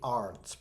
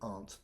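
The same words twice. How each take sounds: First: The word is said with an R sound. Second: The word is said without an R sound. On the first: The speaker calls it wrong. "Please do not say aren't. That is incorrect. That sounds very, very foreign" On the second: The speaker calls it right. "Aren't is similar to my aunt. We know we don't pronounce the R"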